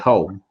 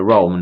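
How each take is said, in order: First: The word begins with an H sound. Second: The word begins with an R sound. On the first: It sounds like the word for house. The speaker calls it wrong. "a lot of Brazilians would say ... they'll say home" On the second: It names the city in Italy. The speaker calls it right. "it's uh, Rome, not home"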